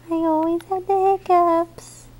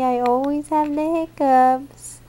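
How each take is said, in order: First: Put-on high little baby voice; baby's voice. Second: Said in the usual way. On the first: Mom speaks as baby telling Daddy, high baby voice. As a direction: say it for the baby, pitched up.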